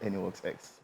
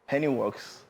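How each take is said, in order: First: The name ends with an added 'ex' sound. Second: The name ends plainly in 'works'. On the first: The speaker calls it wrong. "not Anyworks X" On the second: The speaker calls it right. "Anyworks, not Anyworks X"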